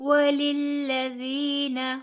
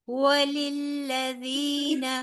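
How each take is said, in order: The two takes are said the same way.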